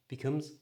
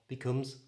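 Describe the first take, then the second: Both takes have the same delivery.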